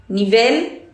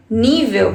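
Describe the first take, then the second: First: "Nível" stressed on the final syllable, ni-VEL; "Nível" as ni-VEL, rising at the end; stress on last syllable. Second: "nível" stressed on the first syllable, NÍ-vel; "nível" as NÍ-veu, falling at the end. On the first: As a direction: say "Nível" Spanish-style, ni-VEL with a clear final L. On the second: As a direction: say "nível" Portuguese-style, NÍ-veu. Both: Shown as a demonstration. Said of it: "diferente sílaba tônica".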